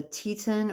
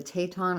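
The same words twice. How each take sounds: First: "Teton" said as TEE-tun; first pronunciation guess. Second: "Teton" said as tay-TAHN; second pronunciation guess. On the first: Vlogger unsure of a brand name, trying "Teton" as TEE-tun. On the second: Vlogger unsure of a brand name, trying "Teton" as tay-TAHN. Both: Shown as a demonstration. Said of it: "I don't know how you pronounce it".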